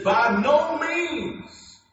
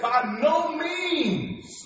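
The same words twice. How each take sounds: First: By no means, slow and hammered, high and loud; emphatic refusal. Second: By no means, each word slow, high and hammered; emphatic refusal. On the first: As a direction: thunder "By no means" as Paul forbidding it. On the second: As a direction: stretch out "By no means" like a ban. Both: Retold or imitated. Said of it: "speaking so strongly and emphatically".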